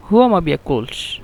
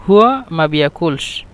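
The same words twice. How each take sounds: The two takes are said the same way.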